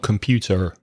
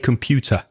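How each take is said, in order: First: It is said in an American accent. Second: It is said in a British accent. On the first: The speaker calls it wrong. "not computer" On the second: The speaker calls it right. "Say computer"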